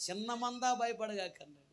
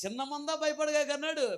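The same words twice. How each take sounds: First: Said in the usual way. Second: చిన్న మంద భయపడగాక said higher and louder, భయపడగాక punched; emphatic correction. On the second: Shown as a demonstration. Pastor correcting the verse for the church, emphatic. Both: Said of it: "చాలా జాగ్రత్తగా గమనించండి".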